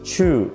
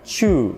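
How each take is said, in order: First: The vowel is said with rounded lips. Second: The vowel is said with rounded lips.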